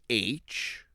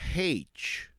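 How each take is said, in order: First: The letter name starts without an h sound. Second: The letter name starts with an h sound.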